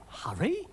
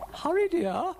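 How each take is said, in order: First: High, rising disbelief; incredulous rising question; affronted echo. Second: High, loud singsong urging; high-pitched impatient dear-old-lady voice; urging lady character. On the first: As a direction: query the word as if insulted. Dougal affronted, echoes her. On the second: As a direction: chivvy in a high lilt. Ermyntrude urges Dougal on. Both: Acted.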